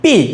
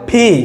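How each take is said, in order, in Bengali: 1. প্রথম ব্যঞ্জনটি সাধারণ, আনঅ্যাসপিরেটেড 'p'। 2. প্রথম ব্যঞ্জনটি শ্বাসযুক্ত, অ্যাসপিরেটেড 'p'। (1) "আমরা ইউজুয়ালি বলে থাকি পি, না ভাই এটা পি না" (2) "এটা হবে ফি, যেন ফ্যান"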